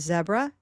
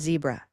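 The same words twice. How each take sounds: First: It is said with a British English pronunciation. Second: It is said with a North American pronunciation. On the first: "So many Englishes call this a zebra" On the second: "in North America we call it a zebra"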